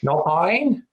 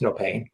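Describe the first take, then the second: First: It is said in a New Zealand accent. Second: It is said in the speaker's plain accent.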